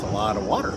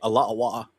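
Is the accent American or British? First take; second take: American; British. First: It is said in a plain American accent. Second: It is said in a put-on British accent.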